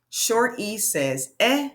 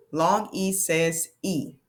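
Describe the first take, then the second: First: E said as short eh, rising; teacher modelling short E; short E sound. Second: E said long as ee, falling; teacher modelling long E; long E sound. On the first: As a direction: clip the E to a short eh. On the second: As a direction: stretch E into its name, ee. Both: Shown as a demonstration. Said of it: "vowel demo".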